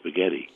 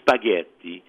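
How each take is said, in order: First: It is said with an American Brooklyn pronunciation. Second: It is said with an Italian pronunciation. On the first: The speaker calls it wrong. "I grew up in Brooklyn and I still call it spaghetti" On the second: The speaker calls it right. "Instead of spaghetti"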